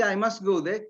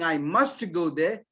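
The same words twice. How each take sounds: First: "I must go there" said casually, "must" unstressed; casual, no emphasis. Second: Slow, insisting "must" in "I must go there"; insistent stress on must. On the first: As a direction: say it lightly, in passing. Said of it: "you're casually just saying". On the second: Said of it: "if you insist on saying". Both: Shown as a demonstration.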